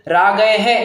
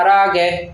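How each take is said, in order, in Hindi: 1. अंतिम ह की ध्वनि तेज़ और अलग सुनाई देती है। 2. अंतिम ह की ध्वनि बहुत हल्की और छोटी है। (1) "ऐसा नहीं पढ़ेंगे" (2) "एकदम एकदम छोटा सा उच्चारण होता है वो ह का"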